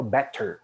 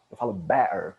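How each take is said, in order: First: Better with the T clearly said. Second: Better in Cockney with a glottal stop for the T; Cockney accent. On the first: Teacher contrasting the standard better, crisp T. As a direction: pronounce better with a full T. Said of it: "não falo better". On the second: Teacher showing Cockney better, T dropped. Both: Shown as a demonstration.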